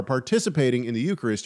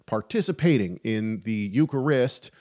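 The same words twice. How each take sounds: First: Said in the usual way. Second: "participating in the Eucharist" with the emphasis on a wrong syllable; misplaced stress. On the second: Real, not acted. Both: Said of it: "I put the wrong emphasis on the wrong syllable".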